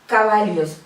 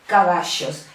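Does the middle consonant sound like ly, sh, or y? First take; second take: ly; sh. First: The middle consonant sounds close to ly. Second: The middle consonant sounds like sh. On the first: "no es una L y una I, no es exactamente así, pero es un sonido muy parecido" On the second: "es como si fuera una S y una H"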